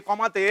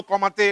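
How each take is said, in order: Both takes have the same delivery.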